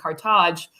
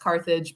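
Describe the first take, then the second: First: The name has a Tunisian pronunciation. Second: The name has an English pronunciation. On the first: "I usually go with the Tunisian pronunciation" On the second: "in English it's pronounced Carthage"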